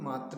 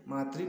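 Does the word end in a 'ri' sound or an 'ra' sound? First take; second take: ra; ri. First: The second syllable ends with a 'ra' sound. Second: The second syllable ends with a 'ri' sound. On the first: The speaker calls it wrong. "मात्र नहीं बोलते हैं" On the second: The speaker calls it right. "मातृ बोलते हैं"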